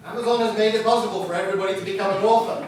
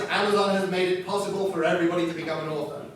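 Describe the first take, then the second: First: Same line again, faster, with a laugh, now as bad news; laughing, quick and ironic; rueful laughing repeat. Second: Upbeat praise. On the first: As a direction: turn the praise into a wry joke. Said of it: "really terrible thing is". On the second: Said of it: "The fantastic thing is". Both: Shown as a demonstration.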